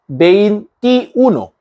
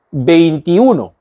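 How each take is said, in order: First: "veintiuno" broken up as vein, ti, uno; slow, separated "veintiuno", each part set apart; split into parts. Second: Said in the usual way. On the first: Shown as a demonstration. Teacher showing learners a compound number, split into parts.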